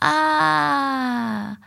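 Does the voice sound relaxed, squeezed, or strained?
strained. The voice sounds strained, neck pulled forward.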